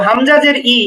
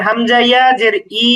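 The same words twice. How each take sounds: First: Said in the usual way. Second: Final "ই" held long; madd elongation. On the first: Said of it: "এখানে কোনো টান নেই". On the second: Shown as a demonstration. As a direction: stretch the closing "ই" for one alif. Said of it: "এক আলিফ টান".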